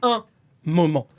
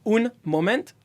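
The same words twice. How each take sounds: First: It is said with a French-sounding accent. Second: It is said with an English-sounding accent. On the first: The speaker calls it right. "It's saying" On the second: The speaker calls it wrong. "The hard part is just not saying un moment"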